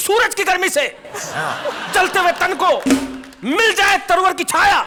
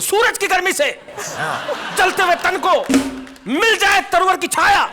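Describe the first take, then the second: First: It is recited loudly, in a heroic style. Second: It is recited loudly, in a heroic style.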